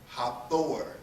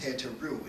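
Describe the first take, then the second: First: The name is pronounced 'Hathor'. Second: The name is pronounced 'Heteru'. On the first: The speaker calls it wrong. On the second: The speaker calls it right.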